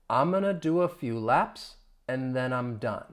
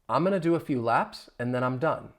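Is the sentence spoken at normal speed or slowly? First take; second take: slowly; normal speed. First: The sentence is spoken slowly. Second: The sentence is spoken at normal speed. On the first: "Let me say it slowly" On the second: "Now at a normal speed"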